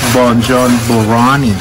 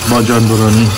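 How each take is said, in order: First: Said in English with a full 'ronnie' ending. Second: Said quickly with a Farsi pronunciation. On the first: "in English, ... You got to get that Ronnie in there" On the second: "if you say it fast in Farsi"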